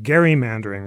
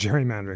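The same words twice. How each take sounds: First: The word begins with a hard G sound. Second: The word begins with a J sound. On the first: It follows the original name of the man it honors. "you can pedantically pronounce it gerrymandering" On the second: It is the usual everyday pronunciation. "rather than gerrymandering"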